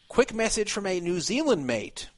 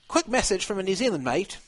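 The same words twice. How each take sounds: First: It is read in the speaker's normal accent. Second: It is read in an imitated New Zealand accent.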